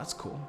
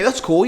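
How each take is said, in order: First: It is said in a slow, calm, low-energy voice. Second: It is said in a fast, excited, high-energy voice. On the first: The speaker calls it right. "Relaxed tone" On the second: The speaker calls it wrong. "Do you speak like with a with a hyper voice?"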